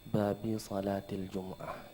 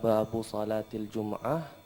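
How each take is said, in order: First: The first word ends in the vowel i. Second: The first word ends in the vowel u. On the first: The phrase is in the genitive case. "boleh juga bacaannya babi" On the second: The phrase is in the nominative case. "Boleh bacaannya babu"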